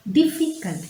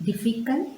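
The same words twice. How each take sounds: First: Difficult, with a high falling tune; teacher spelling out difficult by its syllables; difficult said high and clear. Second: Said in the usual way. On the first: Shown as a demonstration. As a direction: say difficult carefully, every syllable sounded. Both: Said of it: "Diffy is one syllable".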